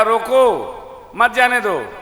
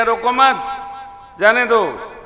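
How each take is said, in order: First: Loud high रोको, break, then मत जाने दो as one phrase; pause after रोको. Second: Loud high रोको मत run together, break, then जाने दो; pause after मत. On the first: Preacher repeats the original order to listeners, loudly pausing after रोको. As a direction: punch रोको alone, keep मत with जाने दो. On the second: Preacher repeats the garbled message, loudly pausing after मत. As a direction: punch रोको मत as one phrase, then जाने दो apart. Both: Shown as a demonstration. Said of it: "अर्थ बदल गया".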